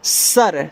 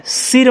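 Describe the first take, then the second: First: "सर" said with an "a" vowel; correct pronunciation. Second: "सिर" said with an "i" vowel; wrong pronunciation. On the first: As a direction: say "सर" with a short a, not an i. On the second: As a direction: say "सिर" with a short i in place of a. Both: Shown as a demonstration. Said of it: "सिर मत पढ़ना".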